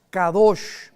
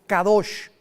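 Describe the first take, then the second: No difference in how they are said.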